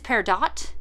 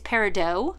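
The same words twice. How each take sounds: First: The word is pronounced the English way. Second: The word is pronounced the French way. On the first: "the English pronunciation is" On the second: "the French pronunciation is"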